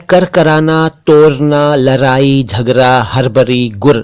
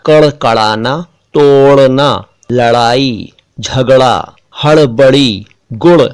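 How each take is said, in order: First: Plain r throughout तोड़ना, लड़ाई, झगड़ा, गुड़; wrong r for ड़. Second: Word by word, retroflex flap in तोड़ना, लड़ाई, गुड़; correct flap ड़. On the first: Teacher shows what they are not saying, plain r. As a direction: replace ड़ with र in लड़ाई, हड़बड़ी. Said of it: "नहीं बोल रहा हूं". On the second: Teacher repeats what was really said, clear flap ड़. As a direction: flap each ड़ in कड़कड़ाना, झगड़ा, हड़बड़ी. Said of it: "मैंने बोला". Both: Shown as a demonstration.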